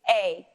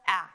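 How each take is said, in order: First: The vowel is said as a long sound. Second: The vowel is said as a short sound. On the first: "our vowels can also make a long sound" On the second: "making the short vowel sound"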